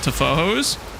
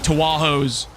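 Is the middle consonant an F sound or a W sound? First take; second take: F; W. First: The middle consonant is pronounced as an F. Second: The middle consonant is pronounced as a W. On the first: The speaker calls it right. "Now that I know it's called Tafojos" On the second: The speaker calls it wrong. "I can now say Tawahos even more intentionally with even more disrespect"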